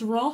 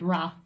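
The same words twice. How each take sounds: First: The word is said with a British pronunciation. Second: The word is said with an American pronunciation. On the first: "If you're in the UK" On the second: "if you're American"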